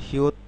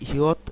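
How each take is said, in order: The two takes are said the same way.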